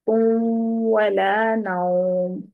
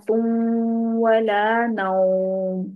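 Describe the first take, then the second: No difference in how they are said.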